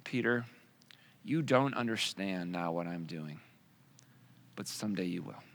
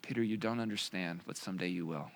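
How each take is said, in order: First: Calm a confused friend quietly; gentle Jesus. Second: Soft, lower repeated reply; gentle Jesus. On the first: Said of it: "And Jesus replies". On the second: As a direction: quietly reassure him once more. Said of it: "exactly what he did". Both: Retold or imitated.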